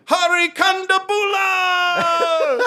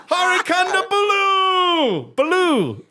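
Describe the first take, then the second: First: High, drawn-out announcer cry on Kondabula; John Oliver introduction. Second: High, drawn-out announcer cry on Kondabulu; John Oliver introduction. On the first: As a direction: stretch Kondabula out, ending on a long "laah". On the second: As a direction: stretch Kondabulu out, ending on a long "looo". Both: Retold or imitated. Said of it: "introduce him".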